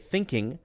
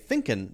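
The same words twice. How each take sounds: First: The ending uses a sound at the back of the mouth. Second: The ending is a plain, relaxed n sound. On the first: "at the back of my mouth" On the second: "it's just an N sound, and I'm kind of relaxed"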